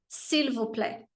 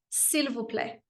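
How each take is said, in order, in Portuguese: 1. O som do L em s'il é pronunciado de leve. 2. O som do L em s'il é pronunciado de leve.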